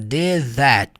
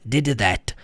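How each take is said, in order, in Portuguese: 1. O d de did se funde com that. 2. O d de did é pronunciado separadamente. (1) "Você vai cortar esse D da pronúncia" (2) "as pessoas não fazem isso na prática"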